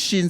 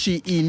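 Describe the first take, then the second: First: The name is said as one syllable, 'shin'. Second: The name is said as two syllables, 'she-in'. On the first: Some people say it this way. "some they say it's Shin" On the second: Other people say it this way. "some they say it's She in"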